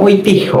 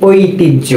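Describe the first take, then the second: First: ঐতিহ্য mispronounced "oitih-ho"; h sound kept. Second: ঐতিহ্য said "oitij-jo"; h-jophola as j. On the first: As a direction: say ঐতিহ্য with an h instead of j. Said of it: "উচ্চারণটা আমরা কিভাবে করতাম". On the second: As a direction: say ঐতিহ্য with a doubled j, no h. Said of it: "এজন্য আমরা পড়ি কি". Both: Shown as a demonstration.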